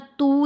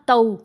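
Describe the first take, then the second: First: The vowel is a plain long 'oo' sound. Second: The vowel glides from 'a' toward 'w'. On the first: The speaker calls it wrong. "ता या तू नहीं पढ़ना" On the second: The speaker calls it right. "आवाज़ को टेढ़ा कर लेना"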